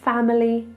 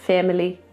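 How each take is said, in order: First: The first vowel is a wide open ah. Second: The first vowel is tight, almost like eh. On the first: The speaker calls it right. "Make sure you say family... Make that a nice wide ah sound" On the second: The speaker calls it wrong. "make sure you don't say things like family"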